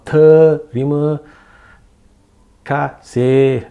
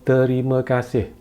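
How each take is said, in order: First: One syllable is stressed more than the others. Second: All syllables get roughly equal weight. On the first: The speaker calls it wrong. "or terima kasih" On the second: The speaker calls it right. "it's not stressed"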